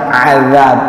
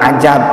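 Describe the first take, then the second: First: The middle consonant is a z sound. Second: The middle consonant is a j sound. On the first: The speaker calls it right. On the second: The speaker calls it wrong. "bukan ajab"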